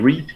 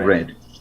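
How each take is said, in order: First: The vowel is long, as in 'seed'. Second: The vowel is short, as in 'bed'. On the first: The action is in the present. "if it's present" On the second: The action is in the past. "If it's past"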